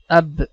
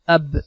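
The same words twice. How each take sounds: First: The final b releases with a short echo bounce. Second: The final b releases with a short echo bounce.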